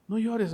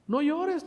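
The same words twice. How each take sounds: First: Said in the usual way. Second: "No llores" lifted high, drawn out; high pleading "No llores". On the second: Acted. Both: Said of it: "le dijo".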